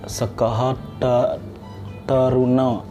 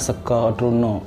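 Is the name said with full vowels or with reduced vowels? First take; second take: full vowels; reduced vowels. First: The vowels are full, sounding as spelled. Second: The vowels are reduced and shifted, sounding clipped. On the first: This is the reading as written. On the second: This is the local Balinese reading.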